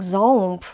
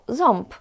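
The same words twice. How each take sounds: First: The vowel is a plain nasal o sound. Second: The vowel is o followed by an m sound. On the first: This is how speakers believe they say it. "of course I'm saying ząb" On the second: This is how speakers actually say it. "they really, really pronounce these nasal sound as I told you"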